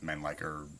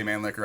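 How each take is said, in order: First: Mannlicher said as "MAN-like-er"; alternative pronunciation. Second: Mannlicher said as "MAN-licker"; own pronunciation. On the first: Guessing at the inventor's name for viewers, alternative pronunciation. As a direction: say Mannlicher with a long i, like "like". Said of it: "It's something like Mannlicher or". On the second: Defending his often-mocked way to viewers, own pronunciation. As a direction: say Mannlicher with a short i, like "lick". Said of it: "made fun of me for that pronunciation". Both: Shown as a demonstration.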